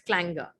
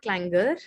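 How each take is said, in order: First: The final R sound is silent. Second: The final R sound is pronounced. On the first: The speaker calls it right. "Without the pronunciation of R in the end" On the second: The speaker calls it wrong. "It's not clangor"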